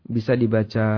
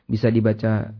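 Both takes have the same delivery.

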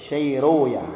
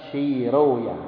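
Both takes have the same delivery.

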